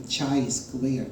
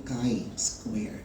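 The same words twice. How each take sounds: First: CHI said as "chai", like the tea; incorrect pronunciation. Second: CHI said as "kai", with a hard k; hard-k "kai" before square; correct pronunciation. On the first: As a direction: say chi with a ch sound, rhyming with "eye". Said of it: "that's not the correct pronunciation". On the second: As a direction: say chi as "kai", rhyming with "eye". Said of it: "That's actually chi square". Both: Shown as a demonstration.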